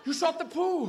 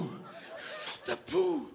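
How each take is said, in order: First: High dramatic outcry; mock-horrified dog. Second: Repeated in the usual pitch; mock shock, lowered. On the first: Dog reacting to owner's shot, high mock horror. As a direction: cry it out high in mock shock. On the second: Dog to owner after the shot, lowered mock disbelief. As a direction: drop it down after an outcry. Second take after the outcry.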